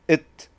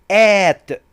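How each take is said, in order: First: The word is said with a reduced vowel. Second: The word is said with a full vowel. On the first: "It is a weak form" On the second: "At is a strong form"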